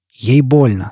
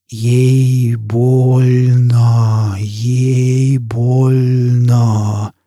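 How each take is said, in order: First: Said in the usual way. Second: Hugely stretched, droning syllables; distorted echo. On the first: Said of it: "сказал он". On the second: A narrator's reading. Burning man's own voice burns his eyes, slow distorted drone. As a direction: draw every vowel out extremely slowly. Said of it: "Звук собственного голоса обжёг его глаза".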